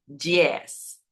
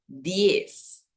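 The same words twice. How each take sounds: First: Diez said like Portuguese djiez; wrong Portuguese diez. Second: Diez slow with a clean D; correct Spanish diez. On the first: Teacher showing the wrong diez with a dji sound. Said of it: "no diez". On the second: Teacher giving the right diez slowly. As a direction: draw out diez with a hard Spanish D. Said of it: "sino diez". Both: Shown as a demonstration.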